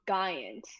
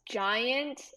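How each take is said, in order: First: It begins with a hard G sound. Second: It begins with a soft J sound. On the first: The speaker calls it wrong. "not giant" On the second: The speaker calls it right. "It um has a J sound"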